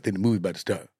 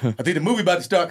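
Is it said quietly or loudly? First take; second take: quietly; loudly. First: It is said quietly. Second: It is said loudly.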